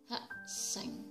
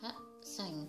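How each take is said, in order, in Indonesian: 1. Konsonan kedua tegang. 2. Konsonan kedua polos, tidak tegang. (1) "tapi yang benar dibaca hak seng" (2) "Harusnya dibaca hak seng"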